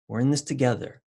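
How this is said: It is said warmly and soothingly.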